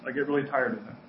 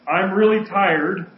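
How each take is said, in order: First: Said in the usual way. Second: Really leaned on slowly; slow stressed really. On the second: Shown as a demonstration. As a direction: stretch out really tired. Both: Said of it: "finish this sentence for you".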